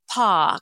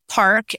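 First: The R after the vowel is dropped. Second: The R after the vowel is pronounced.

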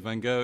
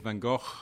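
First: It is said the way people say it here. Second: It is said the speaker's own way.

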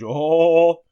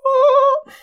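First: It is said in a low pitch range. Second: It is said in a high pitch range. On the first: "if I might go in a low range" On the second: "I might go in a high range"

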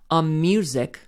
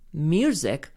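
First: The filler sound flows straight into the word. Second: The filler sound is separated from the word. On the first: "Those are connected" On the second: "Those are not connected"

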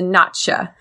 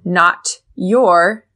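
First: The t and y merge into a ch sound. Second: Not and your are said separately with clear t.

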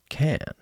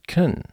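First: It is strong, with a full vowel. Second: It is weak, with a schwa vowel. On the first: The speaker calls it wrong. "not can" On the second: The speaker calls it right. "I said can"

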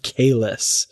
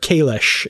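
First: The name is said the ordinary human way. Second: The name is said the Klingon way.

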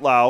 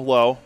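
First: The vowel sounds like the one in cow. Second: The vowel sounds like the one in go. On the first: The speaker calls it wrong. "not Lau" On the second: The speaker calls it right. "Josh Lowe, not Lau, Lowe"

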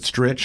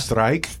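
First: The vowel is short, rhyming with itch. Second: The vowel is long, rhyming with like. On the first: This is how the family says it. "we always pronounced it Stritch in my family forever" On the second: This is how people read the spelling. "to people look at it And they go yeah. strike?"

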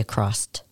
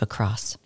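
First: The word ends with an added T sound. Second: The word ends without a T sound. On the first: The speaker calls it wrong. "You say a crossed" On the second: The speaker calls it right. "There's no T at the end of a cross"

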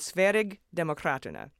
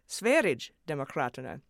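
First: The g is said as a hard g sound. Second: The g is said as a j sound. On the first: "which was close" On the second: "I took to mean a J sound"

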